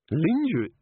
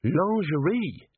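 First: Puzzled "Lingerie" with LIN-juh start, as spelt; mispronounced lingerie. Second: Slow "Lingerie" the French way, LON-zhuh-ree; corrected pronunciation. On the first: Angua echoing Cheery's odd "Lingerie" as LIN-juh, puzzled. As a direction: say "Lingerie" with an English "lin-j", questioning. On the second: Angua realising, saying "Lingerie" as slow LON-zhuh-ree. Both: A narrator's reading.

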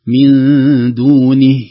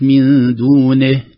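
First: دونه with a short ending, no extra vowel, slow; correct reading. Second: دونه with the ending vowel stretched; wrong reading. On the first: Sheikh demonstrating correct stop, slow and loud. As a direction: say دونه with the final ha cut clean. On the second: Sheikh showing the mistake to avoid. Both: Shown as a demonstration. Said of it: "وليست".

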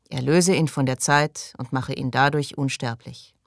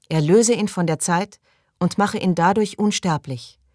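First: Group prayer response. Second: Raised, higher-pitched invocation; prayer leader. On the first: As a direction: repeat the prayer after the leader. Group repeats the prayer line. (gleichmäßig nachbetend) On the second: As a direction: call out the prayer for others to repeat. Leader recites prayer, others repeat. (feierlich vorbetend, höher) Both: Acted.

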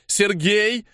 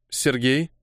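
First: Raised-pitch, contained shout; called out. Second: Said in the usual way. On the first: A narrator's reading. Apostle summoning the scout, urgent higher call. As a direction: call his name higher, more urgently. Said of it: "крикнула апостол".

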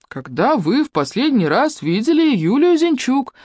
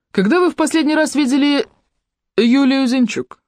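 First: Slow, calm, deliberate repeat. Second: Said in the usual way. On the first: A narrator's reading. Юнец calmly repeats his question, slow and even. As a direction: repeat it patiently. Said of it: "спокойно повторил юнец".

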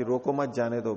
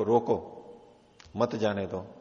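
First: रोको मत joined, then जाने दो; मत grouped with रोको. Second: रोको alone, a clear break, then मत जाने दो; pause after रोको. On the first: Teacher supposes the king ordered free passage, मत joined to रोको. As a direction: tie मत to रोको, then let जाने दो follow. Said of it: "बिना बाधा के". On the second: Officer insists on the king's order to travellers, pause after रोको. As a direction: stop hard after रोको, join मत to जाने दो. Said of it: "नहीं, राजा ने कहा है". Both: Shown as a demonstration.

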